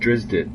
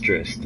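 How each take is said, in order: First: The name is said as two syllables. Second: The name is said as one syllable. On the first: The speaker calls it wrong. "I always affectionately called Drizzt Drizdit" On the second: The speaker calls it right. "no, sweetie, it, it's Drizzt"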